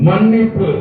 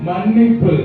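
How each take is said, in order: No difference in how they are said.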